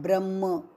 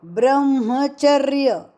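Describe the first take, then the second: First: ब्रह्म with a doubled मː, the wrong way; गलत उच्चारण, म दोहरा. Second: ब्रह्मचर्य with म said whole and clear; म पूरा उच्चारण; full ma. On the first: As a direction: show the error: ब्रह्म with a doubled म. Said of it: "ब्रह्म नहीं". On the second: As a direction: give the म in ब्रह्मचर्य its full sound. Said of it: "यहाँ पे म पूरा". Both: Shown as a demonstration.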